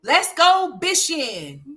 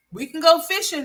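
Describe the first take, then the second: First: Slow, high "bishing" with a B in place of the F; high, slow childish "bishing" instead of "fishing"; imitating son's "bishing". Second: "fishing" said clearly with a proper F sound; high, mock-patient "fishing" with a clear F; correct fishing. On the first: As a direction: drag out "let's go bishing" like the little boy. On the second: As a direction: pronounce "fishing" right, with the F. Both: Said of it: "I'll be like".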